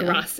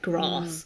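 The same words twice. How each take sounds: First: It is said with a Bath, Southwest accent. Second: It is said with a London accent.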